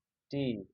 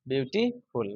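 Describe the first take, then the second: First: beautiful broken up with long pauses between syllables; split into syllables. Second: beautiful said as nearly one word; syllables run together. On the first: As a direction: say beautiful softly, one syllable at a time. (Beautiful को syllable में तोड़कर, रुक-रुककर) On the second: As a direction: say beautiful with only a brief break before the last syllable. (Beautiful को लगभग एक साथ बोलते हुए) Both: Shown as a demonstration. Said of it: "देखते हो सिलेबल".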